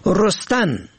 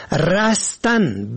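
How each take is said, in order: First: رستن said "rostan", rounded o first; damma on first letter. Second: رستن said slowly "rastan", open a first; fatha on first letter. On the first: Teaching the verb for plants growing, short o vowel. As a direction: say رستن as "ros-tan". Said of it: "به ضم اول". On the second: Teaching the verb for escaping, short a vowel. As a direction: say رستن as a drawn-out "ras-tan". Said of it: "به فتح اول". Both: Shown as a demonstration.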